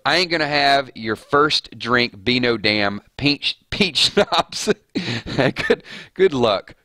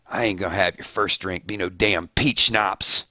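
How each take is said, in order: First: Breaking into laughter. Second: A touch of a rough redneck hunter; Daryl voice. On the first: Rereading the Daryl quote, cracks up. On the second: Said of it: "That's my Daryl voice". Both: Acted.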